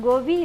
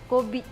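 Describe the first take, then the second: First: The word begins with a voiced G sound. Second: The word begins with a voiceless K sound. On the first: This is the common form, not the local one. "ಇದು ನಮ್ಮ ಲ್ಯಾಂಗ್ವೇಜಲ್ಲಿ ಗೋಬಿ ಇಲ್ಲ" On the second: This is how it is said in the speaker's own language. "ಇದು ನಮ್ಮ ಲ್ಯಾಂಗ್ವೇಜಲ್ಲಿ ... ಕೋಬಿ"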